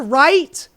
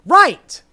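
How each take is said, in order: First: Right? asked with a rising tune; a quick checking right?; questioning right. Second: Right. said louder with a firm falling tune; a firm settled Right; emphatic agreement. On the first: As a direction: ask it, eyebrows up. Checking agreement, then confirming. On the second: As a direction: land it as a verdict. Confirms own question emphatically. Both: Real, not acted.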